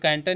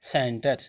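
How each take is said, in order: First: The word begins with a k sound. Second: The word begins with an s sound. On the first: The speaker calls it wrong. "यहाँ पे कैंटर नहीं पढ़ेंगे" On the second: The speaker calls it right. "इसको क्या पढ़ा जाएगा, सेंटर"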